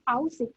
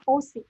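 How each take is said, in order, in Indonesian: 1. Vokal pertama diucapkan sebagai dua vokal. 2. Vokal pertama diucapkan sebagai satu vokal. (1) "Kita bukan bacanya AUSI" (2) "tapi kita bacanya O C"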